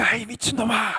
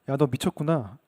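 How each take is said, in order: First: It is shouted loudly and angrily. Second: It is said plainly, without shouting.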